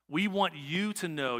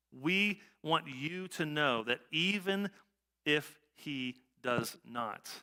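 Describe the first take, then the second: First: Said in the usual way. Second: Slow, deliberate, every word weighed; slow down and lean on each word; emphatic slow repeat. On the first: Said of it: "verse read". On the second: Shown as a demonstration. Preacher stressing the verse for the congregation, slow and deliberate. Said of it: "repeats verse slowly".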